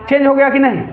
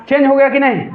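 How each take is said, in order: The two takes are said the same way.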